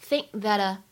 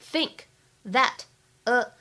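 First: The words are linked with unreleased and unaspirated stops. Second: The words are said separately and fully released.

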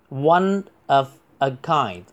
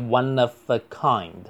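First: The phrase is said at a normal, careful pace. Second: The phrase is said quickly with the words run together.

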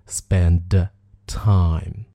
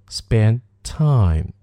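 First: The d of spend is clearly released before time. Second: The d of spend is dropped before time. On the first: The speaker calls it wrong. "而不是spend time" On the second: The speaker calls it right. "在口语当中比较常说的一种发音"

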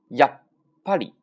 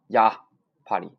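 First: The first syllable stops abruptly before a held beat. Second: The first syllable is stretched out with no stop. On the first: The speaker calls it right. "这种感觉啊。那么它是不是就空了一拍啊？" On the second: The speaker calls it wrong. "不要读长呀，啪里，不行，没有劲儿"

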